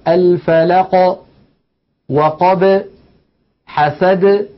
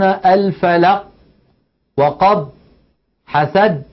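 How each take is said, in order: First: The final consonants are released with a slight echo. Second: The final consonants are stopped abruptly, without echo. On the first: The speaker calls it right. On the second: The speaker calls it wrong.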